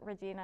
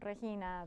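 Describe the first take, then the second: First: The name is pronounced the English way. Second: The name is pronounced the Spanish way. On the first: This is how others mistakenly say the name. The speaker calls it wrong. "people still sometimes call me Regina, and I have to correct them" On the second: This is how the name's owner says it. The speaker calls it right. "it's the Spanish pronunciation"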